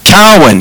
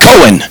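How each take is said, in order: First: The first syllable sounds like 'cow'. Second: The first syllable sounds like 'co'. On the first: The speaker calls it right. "like cow, like moo" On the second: The speaker calls it wrong. "the teacher's going to pronounce it wrong"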